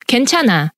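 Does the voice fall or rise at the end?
fall. The pitch falls at the end. It states that the speaker is okay. "If you end it with a full stop"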